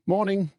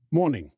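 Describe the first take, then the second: First: High, clipped answer from the campsite keeper; the campsite owner returns the greeting; gruff muggle greeting. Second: Cheery, lifted good morning; a bright, friendly hello; bright greeting. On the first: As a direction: give it back as the wary local. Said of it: "said the muggle". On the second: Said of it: "said Mister Weasley brightly". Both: Acted.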